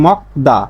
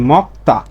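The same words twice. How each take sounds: First: "mok-da" for মকদা, keeping the d; ordinary d reading. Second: "mok-ta" for মক্তা, second syllable on t; corrected t reading. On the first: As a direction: say মকদা with a voiced d in the second syllable. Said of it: "সাধারণভাবে এর উচ্চারণ হচ্ছে". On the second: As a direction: say মক্তা with a voiceless t in place of d. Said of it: "তাহলে এর উচ্চারণটা হবে কি?". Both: Shown as a demonstration.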